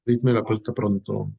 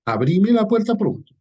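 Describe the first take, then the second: First: Said in the usual way. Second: "Abrime" gritado más agudo y fuerte; llamado venezolano. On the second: Shown as a demonstration. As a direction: llamar a la puerta a voz en cuello. (grito alegre de parranda venezolana) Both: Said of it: "esa señal de cultura venezolana".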